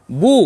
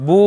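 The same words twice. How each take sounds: First: Said in the usual way. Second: বু with the oo drawn out long; long vowel. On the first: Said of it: "তখন আমরা বলেছিলাম". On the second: Shown as a demonstration. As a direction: hold the oo in বু. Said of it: "উচ্চারণটা একটু লম্বা হবে". (বু টেনে লম্বা করে)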